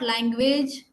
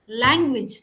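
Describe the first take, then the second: First: The ending is pronounced like the word age. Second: The ending is pronounced as a short ij. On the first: The speaker calls it wrong. "not language" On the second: The speaker calls it right. "It's language"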